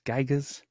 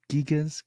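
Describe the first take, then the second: First: Gigas with an eye first vowel; alternate pronunciation. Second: Gigas with an ee first vowel; alternate pronunciation. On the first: Host trying the book's title, Gigas as GUY-gus. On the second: Host trying the book's title, Gigas as GEE-gus. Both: Real, not acted.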